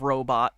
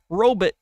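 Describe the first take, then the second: First: Robot has its ordinary modern pronunciation. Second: Robot has a dated, old-fashioned pronunciation.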